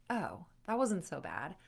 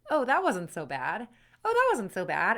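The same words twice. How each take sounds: First: Understated realization, lifting at the end; mild relieved surprise. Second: Louder, brighter realization; growing relieved surprise. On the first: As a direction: discover it was fine, tentatively. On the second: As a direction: say it with growing confidence. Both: Acted. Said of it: "it's over and you're like".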